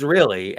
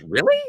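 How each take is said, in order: First: "Really?" low with a falling end; "Really?" as a firm answer, pitched down; confirming REALLY. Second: "Really?" high with a rising end; "Really?" as a doubtful question, pitched up. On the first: She answers him, confirming the order. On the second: Fish questions the order to slap. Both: Retold or imitated.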